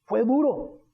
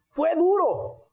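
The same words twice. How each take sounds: First: Said in the usual way. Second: "fue duro" said higher, leaning on "duro"; stressed repeat. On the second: Real, not acted. Preacher recalls his hard fall, emphatic higher "fue duro". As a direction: press on "duro", pitch up high.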